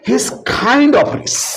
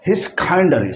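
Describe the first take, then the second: First: Both words 'kind of' are said in full. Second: 'Kind of' is shortened into one word, 'kinda'.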